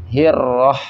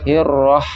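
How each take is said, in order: Both takes have the same delivery.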